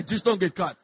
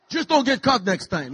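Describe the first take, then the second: First: Said in the usual way. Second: Lightly voiced Greek father accent; a hint of a Greek dad; dad's Greek accent. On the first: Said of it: "That's what he would say". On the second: A hint of his Greek father's accent, advising his son. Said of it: "my dad had a thick accent".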